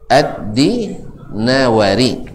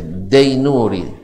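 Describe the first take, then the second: First: The name is said with 'Di' and 'nawari'. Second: The name is said with 'Dai' and 'nuri'. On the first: The speaker calls it right. "yang aslinya adalah Ad-Dinawari" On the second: The speaker calls it wrong. "kesalahan dari dulu"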